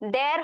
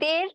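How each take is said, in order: First: The vowel is open, like 'a' in cat. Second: The vowel is closer, like 'e' in bed. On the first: The speaker calls it wrong. "এটার উচ্চারণটা ড্যার হবে না" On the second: The speaker calls it right. "এ ধ্বনির উচ্চারণ কিন্তু এর মতোই হবে"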